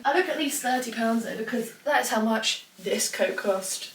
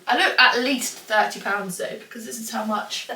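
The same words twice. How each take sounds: First: Careful retake. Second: Said in the usual way. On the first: Real, not acted. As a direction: redo the line, drawing out "how much this coat cost". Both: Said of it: "Let me try that again".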